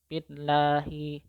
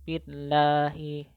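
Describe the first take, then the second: No difference in how they are said.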